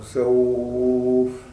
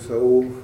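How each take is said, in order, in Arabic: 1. يُمَدّ حرف اللين مدّة طويلة. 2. يُمَدّ حرف اللين مدّة قصيرة جدًا. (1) "لكن الطول يقل" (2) "أنا أقول سوف أو سوف أو سوف"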